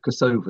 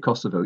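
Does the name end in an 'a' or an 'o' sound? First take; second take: a; o. First: The name ends in an 'a' sound, stress shifted. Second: The name ends in an 'o' sound. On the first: It sides with the Albanian view. "you're being pro-Albanian" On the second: It sides with the Serbian view. "you're being pro-Serbian"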